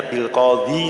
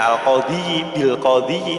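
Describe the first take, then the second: First: "bil qadhi" ending on a short clipped i, as if sukun; plain short ending. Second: "bil qadhi" with the final i of "qadhi" stretched long, qadhii; proper kasrah ending. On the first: Teacher shows students how "bil qadhi" is actually read, short final i. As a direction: cut the final i of "qadhi" short, no vowel length. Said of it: "Tapi ini bacanya hanya bil qadhi saja".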